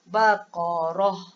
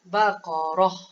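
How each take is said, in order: First: The word ends with only a breathed h. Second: The word ends with only a breathed h.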